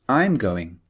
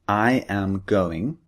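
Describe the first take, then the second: First: The subject and verb are joined together. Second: Both words are said in full, uncontracted. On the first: "we can say" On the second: "instead of saying"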